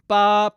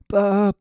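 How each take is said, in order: First: The voice is clear and brassy, without texture. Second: The voice is husky and a little windy.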